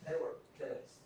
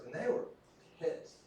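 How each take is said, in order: First: They were pissed whispered as an aside; whispered repeat. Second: Said in the usual way. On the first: Real, not acted. Repeated for emphasis.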